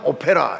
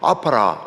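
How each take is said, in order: First: The vowels sound like 'o' and 'e'. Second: The vowels sound like 'a' and 'a'. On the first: The speaker calls it wrong. "오페라는 정확한 발음이 아닙니다" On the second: The speaker calls it right. "아파라 이렇게 해야 됩니다"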